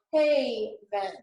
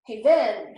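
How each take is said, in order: First: Haven with a long, stressed first syllable; HA-ven, accent on the first syllable. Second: Haven wrongly accented on its last syllable; ha-VEN, accent shifted onto the second syllable; stress on second syllable. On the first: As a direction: lean on the start of haven, drawing it out. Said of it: "this part is accented". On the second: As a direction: punch the end of haven louder. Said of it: "it's not". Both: Shown as a demonstration.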